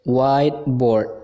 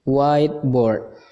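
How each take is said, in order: Both takes have the same delivery.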